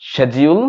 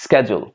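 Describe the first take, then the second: First: 'schedule' as SHED-jee-ul with a rising end; sh sound starting 'schedule'; British-style 'schedule', no k; British pronunciation. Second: 'schedule' as SKED-jul, low and falling; American-style 'schedule' with a hard k; American pronunciation. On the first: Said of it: "British". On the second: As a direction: sk sound starting 'schedule'. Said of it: "American". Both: Shown as a demonstration.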